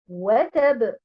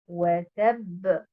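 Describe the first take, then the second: First: The stress is on the first syllable. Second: The stress is on the second syllable. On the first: The final doubled letter is lost. The speaker calls it wrong. "où on met l'accent sur euh, harakat al-waw" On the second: The final doubled letter is kept. The speaker calls it right. "l'accentuation sur harakat at-ta dans le mot watab"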